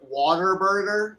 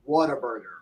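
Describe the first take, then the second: First: It sounds like 'water burger', Texas style. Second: It is said clearly as 'what a burger'.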